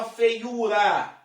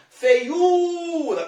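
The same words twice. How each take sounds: First: Said in the usual way. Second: "Feiura" with the U long, high and loud; "Feiura" rising onto a held, stressed U, then falling. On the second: Shown as a demonstration. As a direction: hit and stretch the U in "Feiura". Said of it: "perceba que esse U é mais forte".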